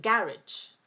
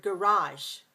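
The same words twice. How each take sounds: First: Garage as GARR-idge, first syllable stressed; British pronunciation. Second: Garage as guh-RAHZH, second syllable stressed; American pronunciation. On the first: Teacher showing how British say it, garage as GARR-idge. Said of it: "British pronounce it garage". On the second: Teacher showing how Americans say it, garage as guh-RAHZH. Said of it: "Americans say the word garage". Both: Shown as a demonstration.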